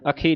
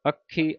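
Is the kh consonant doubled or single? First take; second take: single; doubled. First: The kh consonant is short and soft. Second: The kh consonant is doubled and held tight. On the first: The speaker calls it wrong. "ਅੱਖੀ ਨਹੀਂ ਕਹਿਣਾ" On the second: The speaker calls it right. "ਅੱਖੀ ਪਾਠ ਕੱਸ ਕੇ ਬੋਲਣਾ"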